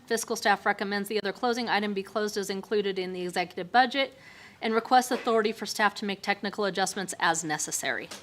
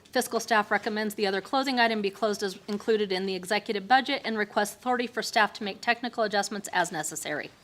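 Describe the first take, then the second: Both takes have the same delivery.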